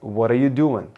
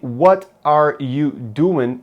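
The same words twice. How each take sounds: First: The words blend together like one word. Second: Each word is said clearly and separately.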